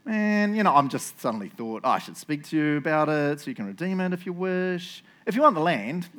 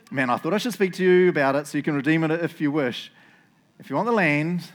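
First: Casual afterthought; who-cares nonchalance. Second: Louder, eager schoolboy; anxious excitement. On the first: Boaz offers the redeemer the land, nonchalant. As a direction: toss it out as if it just occurred to you. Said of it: "I'll read it in the who really cares way". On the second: Boaz offers the redeemer the land, anxious excitement. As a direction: blurt the offer with nervous eagerness. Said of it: "schoolboy impressions, 'cause he's so anxious excitement". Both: Shown as a demonstration.

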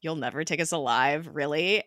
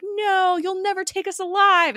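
First: Understated, dry questioning echo; unimpressed mockery. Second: High, loud mock-heroic cry; hammed-up last stand defiance; wildly melodramatic, pitched way up; overdramatic. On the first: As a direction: quote it back sceptically. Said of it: "May mentions to Coulson how overdramatic". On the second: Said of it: "May mentions how overdramatic Coulson".

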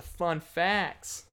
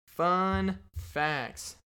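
First: Said in the usual way. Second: Fun facts called out higher like a show bumper; mock announcer call; segment title announce. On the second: Shown as a demonstration.

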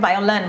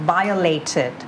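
First: "violent" with a weak -lunt ending; short, reduced last syllable in "violent"; mistaken word violent. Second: Slow "violated" with a long LAY then -tid; full AY and added final beat in "violated"; correct -ated ending. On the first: Retold or imitated. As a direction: echo the learner's wrong "violent". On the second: Shown as a demonstration. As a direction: model "violated" in four clear syllables. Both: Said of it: "ไม่ใช่ violent".

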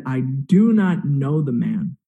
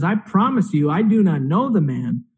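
First: Slow, emphatic retold denial, understated anger; losing his cool. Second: Mildly insistent retold denial; insistent oath. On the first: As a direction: swear it word by word, with restrained heat. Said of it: "Peter just loses his cool completely". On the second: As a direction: retell a sworn denial at normal pace, lightly acted. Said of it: "Peter doubles down and he makes an oath".

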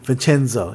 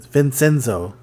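First: Vincenzo with a CH sound in the middle; Italian pronunciation. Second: Vincenzo with an S sound in the middle; anglicised pronunciation. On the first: Host settling on the director's name, Italian pronunciation. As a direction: say Vincenzo as vin-CHEN-zo. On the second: Host repeating the co-host's guess at a director's name, anglicised. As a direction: say Vincenzo as vin-SEN-zo. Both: Shown as a demonstration. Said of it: "I think it's actually pronounced Vincenzo".

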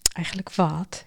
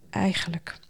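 First: Sung, low, soft murmured question; sung, murmur it back as a gentle prompt; humming murmur. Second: Soft, hushed, tentative start; softly. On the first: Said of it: "zoemde het meisje". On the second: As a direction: let the word trail gently, unfinished. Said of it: "zei hij zacht". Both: A narrator's reading.

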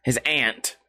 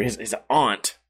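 First: "aunt" whispered with a flat a, like the insect ant. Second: "aunt" said with a broad ah vowel, ahnt. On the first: Streamer correcting himself in a whisper, "aunt" as ant. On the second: Streamer checking which way he said it, "aunt" as ahnt. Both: Shown as a demonstration. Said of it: "Did he say aunt or aunt?".

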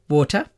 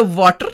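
First: Said in the usual way. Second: Put-on South Asian accent. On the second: Healer telling daughter about paper ritual, South Asian accented "water". Accented word, then said usual way.

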